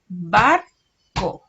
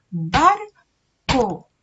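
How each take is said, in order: First: Barco said loud with the first syllable bar pressed; teacher pointing out the first syllable of Barco; initial syllable stressed. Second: Barco split into bar and co, loud and clear; teacher counting the syllables of Barco on her fingers. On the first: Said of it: "cuál es la sílaba inicial de la palabra barco". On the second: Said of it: "Hagámoslo con los dedos". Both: Shown as a demonstration.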